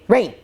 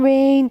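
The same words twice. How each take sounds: First: The name is said sharply and urgently. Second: The name is said softly and affectionately.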